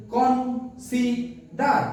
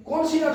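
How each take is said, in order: First: "consider" in three slow beats, কন, সি, ডার; split into syllables. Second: Said in the usual way. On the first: Shown as a demonstration. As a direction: pause after each syllable of "consider". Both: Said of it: "তিনবার উচ্চারণ করতে পারছি".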